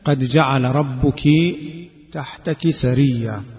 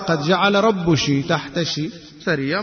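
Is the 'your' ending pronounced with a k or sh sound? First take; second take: k; sh. First: The 'your' endings are said with a k sound. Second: The 'your' endings are said with a sh sound.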